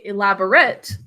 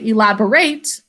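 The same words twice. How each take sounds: First: It is said with the adjective pronunciation. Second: It is said with the verb pronunciation. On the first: The word describes something. "if we use it as an adjective" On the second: The word is used as an action. "when we use it as a verb"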